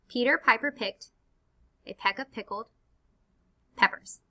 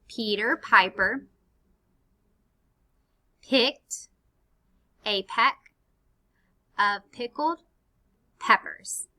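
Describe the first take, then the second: First: It is said more quickly. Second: It is said at a normal pace.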